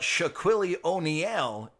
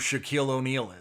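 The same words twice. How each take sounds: First: The name is pronounced in a deliberately mangled way. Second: The name is pronounced in the usual way. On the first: "is funnier" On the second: "I'm aware who Shaquille O'Neal is"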